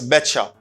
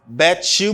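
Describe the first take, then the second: First: The words blend into one reduced form. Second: Both words are said fully and separately.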